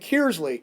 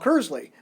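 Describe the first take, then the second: First: The first syllable rhymes with tier. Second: The first syllable does not rhyme with tier. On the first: An outsider says it. "looks like tier with a K in front" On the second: A local says it. "we call Kersley"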